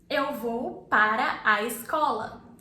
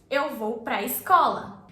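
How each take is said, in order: First: The words 'para a' are said in full. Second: The words 'para a' merge into one syllable.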